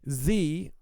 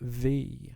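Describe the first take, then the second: First: The word begins with a buzzing z sound. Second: The word begins with a th sound. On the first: The speaker calls it wrong. "he said Z twice" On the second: The speaker calls it right. "put his tongue between his teeth"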